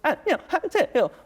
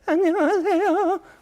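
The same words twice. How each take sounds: First: The voice cuts off into disconnected separate pieces. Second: The voice trembles and shakes throughout the word. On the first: The vocal disorder has become more severe. "흔들리지도 않고 안녕하세요 연 연결이 안 돼요" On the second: The vocal disorder is at a milder stage. "흔들려 버려요"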